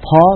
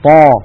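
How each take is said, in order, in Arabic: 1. يُنطق الحرف ويخرج معه هواء فيه نَفَس. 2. يُحبس الحرف بدون خروج هواء. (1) "لا يصح أن نقول طا" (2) "بل نقول طا"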